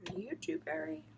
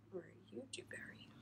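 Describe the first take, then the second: First: Said in the usual way. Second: Whispered question to the yarn; hushed playful whisper. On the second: Real, not acted. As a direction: breathe the question, no voice. Asks the second skein in whisper.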